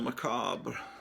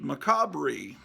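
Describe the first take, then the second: First: The word is said in its standard form. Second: The word is said as a spelling-based misreading.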